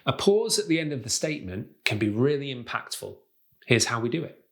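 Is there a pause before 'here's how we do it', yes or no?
no. It runs on without a marked pause.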